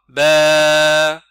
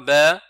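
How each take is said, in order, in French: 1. La voyelle est étirée beaucoup trop longtemps. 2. La voyelle est coupée très court. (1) "c'est trop long" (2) "c'est trop court"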